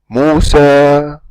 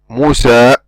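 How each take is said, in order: First: The final vowel fades out gradually. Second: The final vowel is cut off suddenly. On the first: The speaker calls it right. "we fade out the sound of the ألف... See, we're fading out" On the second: The speaker calls it wrong. "we don't say Musa, Musa. We don't just close the vocal cords"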